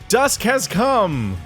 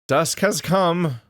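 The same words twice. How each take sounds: First: It is said with lots of energy. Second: It is said flatly, with little energy.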